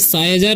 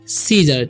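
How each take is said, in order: First: The first syllable has an eye sound. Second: The first syllable has a long ee sound. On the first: The speaker calls it wrong. "इसे साइजर नहीं पढ़ना है" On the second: The speaker calls it right. "इसे हम पढ़ते हैं सीजर"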